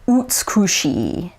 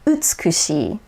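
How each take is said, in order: First: The u vowel is darker and fuller. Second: The u vowel is brighter and shorter. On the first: "with an American accent" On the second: "whereas Japanese it's"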